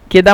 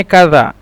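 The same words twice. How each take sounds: First: "কেদা" with an e in the first syllable; Egyptian dialect form. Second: "কাদা" with a long a in the first syllable; standard Arabic form. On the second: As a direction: say formal "কাদা", open first vowel. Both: Shown as a demonstration. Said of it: "কেদা মানে কাদা".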